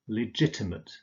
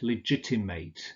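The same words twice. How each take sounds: First: The final syllable is a weak "ut" sound. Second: The final syllable is a full "ate" sound. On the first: It is used as an adjective. "you use ut" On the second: It is used as a verb. "you always pronounce it ate"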